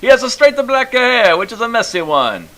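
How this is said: It is read in a thick Italian accent.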